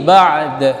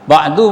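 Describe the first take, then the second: First: The final vowel is dropped entirely. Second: The final vowel is said short. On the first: "Kalau diwaqaf dia mah mati" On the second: "boleh, tapi jangan dipanjangkan"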